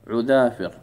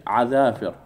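First: عذافر said ʕu-dhafir, first vowel u; damma on the ain. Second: عذافر said ʕa-dhafir, first vowel a; fatha on the ain. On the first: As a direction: model the singular عذافر with u on the ain. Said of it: "بضم العين". (عذافر بضم العين) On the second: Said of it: "احنا نظنها كنا إيش؟". (عذافر بفتح العين) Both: Shown as a demonstration.

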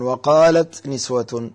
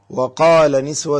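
First: "وقالت" said slowly with the feminine "ت" clearly sounded; slow teaching demo. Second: "وقال" said slowly and clearly, masculine verb with no feminine ending; teacher spells out "وقال" word by word; slow teaching demo. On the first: Sheikh shows the feminine verb form on a broken plural, slowly. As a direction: draw out "وقالت", landing on the final t. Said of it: "طبعًا في غير القرآن". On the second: Sheikh shows a caller the masculine verb form, slow and clear. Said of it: "يعني، ممكن أقول". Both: Shown as a demonstration.

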